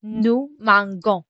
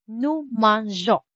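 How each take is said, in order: First: "mangeons" wrongly said with a hard g, man-gon; slow "nous mangeons", G as in "go". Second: "mangeons" with a soft zh for the G; slow "Nous mangeons", G as in French "je". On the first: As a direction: say "mangeons" as if it had no E: mang-gon. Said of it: "Kasi kapag wala si letter E". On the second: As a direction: say "mangeons" softly as man-zhon, slowly. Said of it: "to keep the G soft". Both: Shown as a demonstration.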